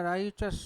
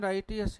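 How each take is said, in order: First: राइचस said with ch, not t; correct pronunciation. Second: राइटियस said with a clear t, as the common mistake; common wrong pronunciation. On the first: Teacher gives students the right form, correct pronunciation. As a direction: say it राइचस, ch in the middle. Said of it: "ये राइटियस नहीं होता है". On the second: Teacher shows students the mistake, wrong pronunciation. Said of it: "हम इसको कुछ और ही बोलेंगे भाई". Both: Shown as a demonstration.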